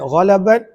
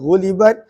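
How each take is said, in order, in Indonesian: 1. Vokal pertama adalah bunyi 'a'. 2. Vokal pertama adalah bunyi 'u'.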